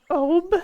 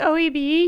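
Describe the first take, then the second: First: The name is said as one retching-like word. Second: The name is spelled out letter by letter. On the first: This is the listener's way of saying it. "Like you're throwing up like a cat?" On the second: This is the speaker's own way of saying it. "I say O E B"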